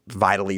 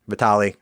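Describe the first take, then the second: First: The name is said with an American pronunciation. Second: The name is said with a Russian pronunciation. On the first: This is how Americans mispronounced the name. The speaker calls it wrong. "they would say like Vitally" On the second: This is how Russian speakers say the name. The speaker calls it right. "Slavic speaking, Russian speaking, Vitali"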